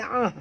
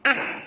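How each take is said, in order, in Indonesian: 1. Bunyinya dalam, dari tenggorokan. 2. Bunyinya dangkal, dari depan. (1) "tapi ah dalam" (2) "bukan ah"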